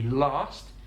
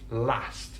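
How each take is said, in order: First: It is said with a southern English vowel. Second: It is said with a northern English vowel. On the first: "in the south of England, you would have ah, it would be last" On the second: "but in the north of England, it's last"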